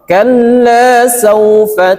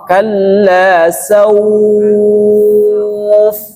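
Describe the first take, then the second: First: It flows on through saufa with a short vowel. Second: It stops on sauf with a lengthened vowel. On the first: "Adapun dibaca wasol" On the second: "dibaca panjang ketika dia wa wakof"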